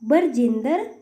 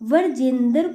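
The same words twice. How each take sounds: First: An extra vowel splits the consonant cluster. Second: The consonant cluster is kept together. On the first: The speaker calls it wrong. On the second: The speaker calls it right.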